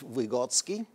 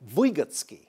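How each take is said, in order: First: The stress is on the second syllable. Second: The stress is on the first syllable. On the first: "We know him in the West as" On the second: "with the accent on the first syllable"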